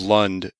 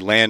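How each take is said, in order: First: The syllable has a reduced 'uh' vowel. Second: The syllable has a full, open 'a' vowel. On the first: The speaker is a local. The speaker calls it right. "instead of Lund" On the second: The speaker is a visitor, not a local. The speaker calls it wrong. "if you say land instead of Lund, it does make you stand out as a tourist"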